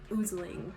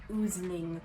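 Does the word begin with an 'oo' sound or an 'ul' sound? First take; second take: oo; oo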